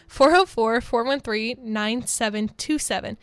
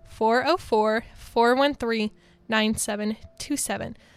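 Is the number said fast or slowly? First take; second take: fast; slowly. First: The number is said at a faster pace. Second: The number is said at a slower pace.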